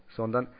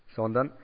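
Both takes have the same delivery.

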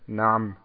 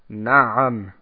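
First: No vowel follows the middle consonant. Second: A short a vowel follows the middle consonant. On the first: The speaker calls it wrong. "und nicht sagt Naam" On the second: The speaker calls it right. "dass man beim Ein das Fatha ebenfalls ausspricht"

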